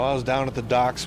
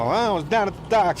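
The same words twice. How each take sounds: First: It is said in the speaker's ordinary accent. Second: It is said in a New York Italian accent.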